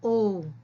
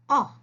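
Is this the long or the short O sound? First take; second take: long; short. First: A long o vowel sound, like the letter's name. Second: A short, open o vowel sound, as in ox. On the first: "The vowel says its name" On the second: "That is the short sound of the vowel O"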